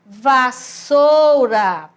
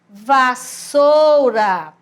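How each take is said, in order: First: The middle consonant is a voiceless s sound. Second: The middle consonant is a voiceless s sound.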